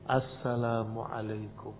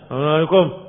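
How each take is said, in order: First: The greeting is articulated clearly and distinctly. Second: The greeting is mumbled and hard to make out. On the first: The greeting can be plainly understood. "Kalau jelas" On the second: The greeting's words cannot be made out. "tapi enggak jelas"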